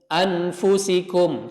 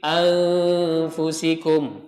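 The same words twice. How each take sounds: First: The n sound is pronounced fully and clearly. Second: The n sound is hidden in a nasal hum. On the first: The speaker calls it wrong. "jangan baca anfusikum" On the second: The speaker calls it right. "tapi anfusikum"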